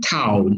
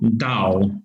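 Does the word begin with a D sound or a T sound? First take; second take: T sound; D sound. First: The word begins with a T sound. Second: The word begins with a soft D sound. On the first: This is how it is said in the West. "But in the West, uh, people use Tao" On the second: This is how it is said in Chinese. "So that is Chinese pronunciation"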